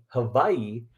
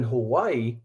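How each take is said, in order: First: "Hawaii" said hah-VAI-ee, with a v sound; "Hawaii" with the Hawaiian v sound, hah-VAI-ee; Hawaiian pronunciation. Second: Said in the usual way. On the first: Shown as a demonstration.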